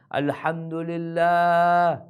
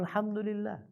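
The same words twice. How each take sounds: First: A long, slow, drawn-out breath of gratitude; slow, heartfelt praise with a higher lift; relieved thanks. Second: High and very soft, barely voiced out; a high, faint, exhausted praise; breathless thanks. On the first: Acted. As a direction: stretch it out like a man who barely survived. Man thanking God after escaping hell. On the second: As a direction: sigh it out as the last of his strength. Survivor's final thanks after hell.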